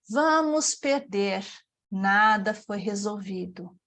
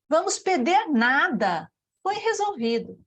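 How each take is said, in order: First: There is a pause after 'perder'. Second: There is a pause after 'nada'. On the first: We will lose; nothing was solved. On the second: We will lose nothing; it was solved.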